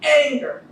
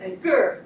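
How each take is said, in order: First: The stress is on the first syllable. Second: The stress is on the second syllable. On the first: The speaker calls it right. "it's gonna be anger" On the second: The speaker calls it wrong. "as opposed to anger. Because then you just hear the gur"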